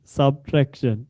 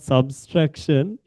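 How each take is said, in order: First: No extra s sound follows the first syllable. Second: An extra s sound follows the first syllable. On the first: The speaker calls it right. "It's subtraction" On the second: The speaker calls it wrong. "It's not subtraction. ... there can't be a second S"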